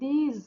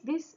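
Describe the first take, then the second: First: The word ends with a z sound. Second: The word ends with an s sound. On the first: The speaker calls it right. "আর এটার উচ্চারণ দিজ" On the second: The speaker calls it wrong. "আমরা মাঝে মধ্যেই ভুল করে দুটোকেই দিস দিস এরকম বলি"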